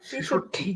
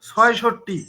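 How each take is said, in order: First: The first syllable is said as 'chhe'. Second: The first syllable is said as 'chhoy'. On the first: The speaker calls it right. "নাহলে ছেষট্টি" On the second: The speaker calls it wrong. "ছয়ষট্টি বলতে পারেন না"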